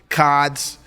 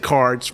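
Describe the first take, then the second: First: The r is dropped, in a New England accent. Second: The r is pronounced, with no regional accent. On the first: This is how a local would say it. "you don't seem to have a New England accent. You don't say cods" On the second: This is how someone without the local accent says it. "You say cards"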